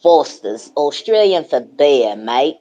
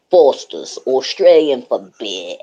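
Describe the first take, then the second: First: Australian accent. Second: Mock Aussie accent on a beer slogan; hammed-up Aussie ad-line accent; Australian accent. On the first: Shown as a demonstration. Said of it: "Do it again, do it again". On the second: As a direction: lay on a cheeky Australian accent. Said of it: "my favorite Too Cold voice".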